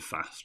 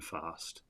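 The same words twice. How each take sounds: First: It is said with a northern English vowel. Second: It is said with a southern English vowel. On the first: "and fast" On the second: "rather than fast, like a southerner"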